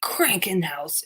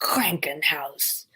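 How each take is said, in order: First: "Krankenhaus" spoken aloud slowly, KRAN-ken-haus; clear German word. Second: "Krankenhaus" whispered slowly, KRAN-ken-haus; whispered German word. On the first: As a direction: say "Krankenhaus" carefully, voiced and slow. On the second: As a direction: breathe out "Krankenhaus" syllable by syllable. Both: Shown as a demonstration. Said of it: "hospital is Krankenhaus".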